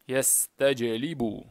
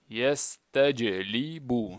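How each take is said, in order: First: The word is read quickly and smoothly. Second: The word is read slowly and deliberately.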